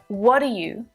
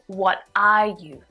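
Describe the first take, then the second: First: The words are run together and reduced. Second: Each word is said separately and fully. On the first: "the contracted form" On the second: "instead of"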